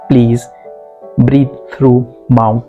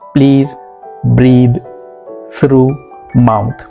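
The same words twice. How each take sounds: First: The words run together, linked smoothly. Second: Each word is pronounced separately, without linking. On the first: The speaker calls it right. "the right pronunciation would be" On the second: The speaker calls it wrong. "wrong uh, pronunciation"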